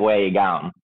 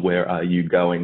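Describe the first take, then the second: First: The words run together into one long word. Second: Each word is said separately and clearly. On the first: "semua katanya nyambung" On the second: "padahal itu where are you going"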